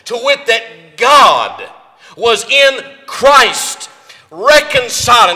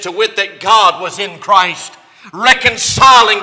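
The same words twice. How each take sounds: First: It is read at a slower pace. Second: It is read at a normal, quicker pace.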